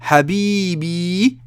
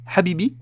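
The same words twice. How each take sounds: First: The middle vowel is prolonged and long. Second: The middle vowel is short, not prolonged. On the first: The speaker calls it right. "avec la prolongation, on comprend bien" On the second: The speaker calls it wrong. "Si je dis Habibi, on a une erreur, on comprend pas le mot"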